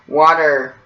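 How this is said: The T sounds like a D, with an R. "people in the U S say says water the T as a D"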